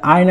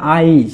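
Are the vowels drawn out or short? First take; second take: short; drawn out. First: The vowels are said short and quick. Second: The vowels are stretched out and drawn long. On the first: The speaker calls it wrong. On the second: The speaker calls it right.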